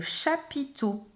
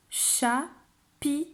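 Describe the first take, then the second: First: Said in the usual way. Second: "Chapiteau" split cha, pi, teau with pauses; syllable by syllable. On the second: Shown as a demonstration. Teacher showing a child how to count syllables, word split up. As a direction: count out "Chapiteau" slowly in three separate beats. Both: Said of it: "Tu vas compter les syllabes de chapiteau".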